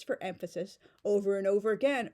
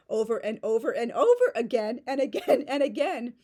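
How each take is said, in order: First: Said in the usual way. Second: Each "over" hit hard, building louder; hammed-up emphatic repetition; louder, rising emphatic repetition. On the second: Shown as a demonstration. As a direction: pile up the repeats for effect. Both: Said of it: "or I should say".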